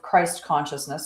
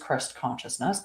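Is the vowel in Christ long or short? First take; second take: long; short. First: The vowel in Christ is long. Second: The vowel in Christ is short. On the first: This is the form used for the public. The speaker calls it wrong. "and I say it for that, for public" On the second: This is the true form. The speaker calls it right. "but it is Christ consciousness"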